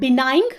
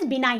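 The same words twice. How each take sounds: First: "benign" with a hard g sounded at the end; wrong pronunciation, G sounded. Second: "benign" ending on n, g left silent. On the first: ("benign" के अंत में ग की आवाज़ के साथ) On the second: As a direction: say "benign" as bi-nine, no g. ("benign" में ग silent, बिनाइन) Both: Shown as a demonstration. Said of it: "इसमें जी साइलेंट होता है".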